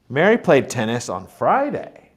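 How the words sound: The word Friday is stressed. It was this day and not the usual one. "Mary played tennis on Friday, not Saturday, like usual"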